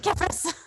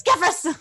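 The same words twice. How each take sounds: First: High-pitched cry of a name; calling out in character. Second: Loud, high character call; Silmi. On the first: Sister bursting into her brother's room, calling out high. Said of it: "I'm gonna be like". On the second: Sister bursting in on her brother, loud urgent call. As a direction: call out the name forcefully, high-pitched. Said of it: "So I get into my Silmi voice". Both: Acted.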